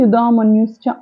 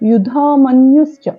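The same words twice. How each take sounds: First: The 'dh' is said lightly without breathy release. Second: The 'dh' is said with a strong breathy release. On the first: The speaker calls it wrong. "అని తేల్చి చదవకూడదు" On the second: The speaker calls it right. "యుధామన్యుశ్చ ఒత్తుంది ఇక్కడ ధాకి"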